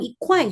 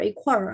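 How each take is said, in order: First: The word ends without an added r sound. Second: The word ends with an added r sound. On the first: "ngomong equal juga boleh" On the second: "pakai er ditambah er"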